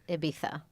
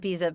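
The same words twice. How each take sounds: First: It is said with a Spanish pronunciation. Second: It is said with an American pronunciation.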